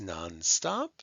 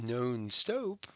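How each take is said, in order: First: The O vowels are said short. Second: The O vowels are said long. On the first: The speaker calls it right. "they're short O's" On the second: The speaker calls it wrong. "It's not non-stop"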